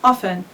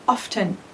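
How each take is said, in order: First: The T sound is left out completely. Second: The T sound is pronounced in the middle. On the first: "the most common is often. So we don't pronounce the T" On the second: "Some people pronounce it often. It's not uh, wrong"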